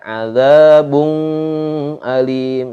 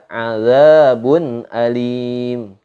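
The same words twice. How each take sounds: First: The n is held with a nasal hum. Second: The n is short and clear, no hum. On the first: The speaker calls it wrong. "Enggak boleh dibaca azabun alim. Salah" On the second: The speaker calls it right. "Tapi harus dibaca azabun alim"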